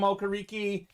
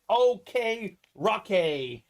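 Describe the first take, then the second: First: The name sounds like 'Okereke'. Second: The name sounds like 'OK Roque'. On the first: This is how the hosts usually say the name. "but I know we call him Okereke" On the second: This is how the name is properly pronounced. "I think it's pronounced like OK Roque"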